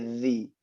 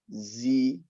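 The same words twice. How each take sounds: First: The first consonant is a soft 'dh' sound. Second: The first consonant is a buzzing 'z' sound. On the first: The speaker calls it right. "dia zi" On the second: The speaker calls it wrong. "Jangan dia duduk di zai"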